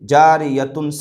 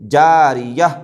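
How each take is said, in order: First: The word ends with a full 'tun' sound. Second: The word ends with a silent-stop 'h' sound. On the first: The reader continues without stopping. "ता दो पेशतुन" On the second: The reader stops on this word. "हा बना करके उसके ऊपर जस्म दे दिए"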